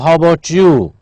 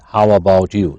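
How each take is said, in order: First: The words are blended into a reduced form. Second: Each word is said fully and separately. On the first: "I'll give a reduced form"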